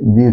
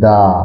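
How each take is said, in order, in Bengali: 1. শব্দটি 'ee' স্বরধ্বনি দিয়ে শেষ হয়। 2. শব্দটি 'uh' স্বরধ্বনি দিয়ে শেষ হয়। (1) "দি উচ্চারণ হলো" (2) "কনসোনেন্টের আগে টিএইচই থাকলে এর উচ্চারণ দা হয়"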